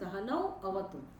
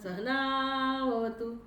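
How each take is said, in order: First: The two words are kept apart as separate words. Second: The two words are blended into one word. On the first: The speaker calls it right. "પછી છૂટું પડે સહનૌ અવતુ શબ્દ એવો છે" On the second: The speaker calls it wrong. "સહનાવતું આવું બોલીએ આપણે. એ બોલવાની રીતે ખોટી છે"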